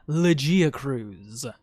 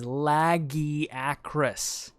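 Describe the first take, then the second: First: The final syllable ends with a z sound. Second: The final syllable ends with an s sound. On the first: The speaker calls it wrong. "not Legiacruz" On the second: The speaker calls it right. "The correct pronunciation is Lagiacrus"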